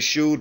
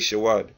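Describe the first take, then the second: First: The word is said short and clipped. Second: The word is said with more drawn-out syllables. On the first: This is how another group says it. "They say shud" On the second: This is how the speaker's own group says it. "we say shawad"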